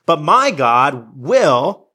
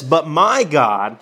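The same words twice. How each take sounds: First: "my" drawn out very slowly; slow reading leaning on "my"; stress on my. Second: "my" slow and leaned on; slow, stressing "my". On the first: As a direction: linger on "my God will," rising at the end. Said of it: "He takes God personally". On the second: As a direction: dwell on "my God," slowly. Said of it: "I love how he says that". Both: Shown as a demonstration.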